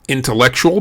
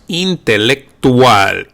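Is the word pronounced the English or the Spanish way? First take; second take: English; Spanish. First: It is said with English sounds. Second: It is said with Spanish sounds.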